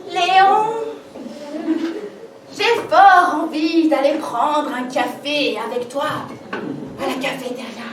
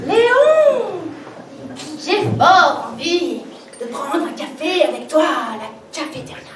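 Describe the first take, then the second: First: Awkward attempt at a purr; clumsy try at seduction; sultry voice. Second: Seductive invitation, second take; sultry voice. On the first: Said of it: "ne pas oublier la voix langoureuse". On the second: Acted. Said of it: "Je recommence".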